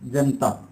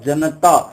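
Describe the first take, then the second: First: The vowel after the 'n' is dropped. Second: The vowel after the 'n' is clearly pronounced. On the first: The speaker calls it wrong. "न का उच्चारण है वो स्वर रहित कर दिया जाता है" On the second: The speaker calls it right. "शब्द तो सही है"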